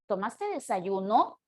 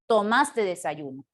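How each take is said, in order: First: The pitch rises at the end. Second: The pitch falls at the end. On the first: It asks a question. "aumentarle los signos de interrogación" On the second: It states a fact. "su tono es de tipo descendente"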